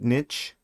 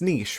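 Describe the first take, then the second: First: The word rhymes with switch. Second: The word does not rhyme with switch. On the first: "I guess they want you to pronounce it niche?" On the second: "It's, it's niche, right?"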